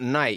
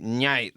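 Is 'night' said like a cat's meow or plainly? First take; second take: plain; meow-like. First: The word sounds like ordinary night. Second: The word starts with a meow-like nya sound. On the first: "Not night" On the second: "like a meow"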